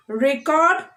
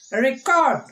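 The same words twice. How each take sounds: First: "Record" as a noun, REC-ord; first-syllable stress. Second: "Record" as a verb, re-CORD; second-syllable stress. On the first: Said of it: "stressing on the first syllable". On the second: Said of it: "we are stressing on the second". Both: Shown as a demonstration.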